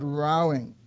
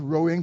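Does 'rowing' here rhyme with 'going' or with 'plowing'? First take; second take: plowing; going. First: The vowel sounds like the one in 'cow'. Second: The vowel sounds like the one in 'go'. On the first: It means quarreling. The speaker calls it right. "but rowing" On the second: It means moving a boat with oars. The speaker calls it wrong. "Not rowing"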